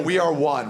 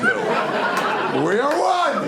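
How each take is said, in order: First: Said in the usual way. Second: Drawn-out, high, rising yell; hammed-up slow yell of unity; stretched romantic yell. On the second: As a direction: bellow it slowly like a grand climax. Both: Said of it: "Just yell".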